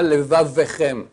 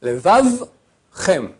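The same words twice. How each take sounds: First: "levavchem" said slowly as le-va-ve-chem; shva wrongly voiced. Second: "Levavchem" very slow, v held then chem; silent shva. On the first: Rabbi showing the error, extra vowel voiced. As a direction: add an e between v and ch in "levavchem". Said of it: "c'est pas levavchem". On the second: Rabbi correcting, shva silent and slowly separated. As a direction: stop on "Levav", then add "chem" with no vowel between. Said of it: "on l'entend pas". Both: Shown as a demonstration.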